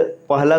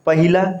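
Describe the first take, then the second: First: पहला said as "pah-laa"; correct form. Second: पहिला said as "pa-hi-laa"; wrong added vowel. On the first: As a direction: go from h straight to l in पहला. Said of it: "शुद्ध होगा". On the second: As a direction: sound an i after the h in पहिला. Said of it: "ये अशुद्ध है". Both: Shown as a demonstration.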